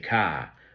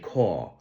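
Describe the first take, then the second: First: It is said in a Boston accent. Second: It is said in a New York accent.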